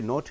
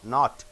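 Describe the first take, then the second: First: The vowel is a rounded 'oh' sound. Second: The vowel is an open 'ah' sound. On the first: The speaker calls it wrong. "You don't say note" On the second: The speaker calls it right.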